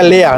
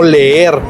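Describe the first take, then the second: First: It is said with German pronunciation, ending softly. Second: It is said with Spanish pronunciation, ending in r. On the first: The speaker calls it right. "se pronuncia lea" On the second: The speaker calls it wrong. "no leer"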